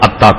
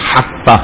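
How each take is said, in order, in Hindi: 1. शब्द स्वर से शुरू होता है, इसमें "h" नहीं है। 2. शब्द की शुरुआत "h" की आवाज़ से होती है। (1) "इसको वो अत्ता कहते" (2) "सही अरबी नहीं बोल पाते"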